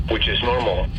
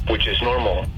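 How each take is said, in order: Both takes have the same delivery.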